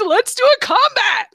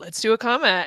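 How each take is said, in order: First: It is said in a very excited tone. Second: It is said in a calm, plain tone.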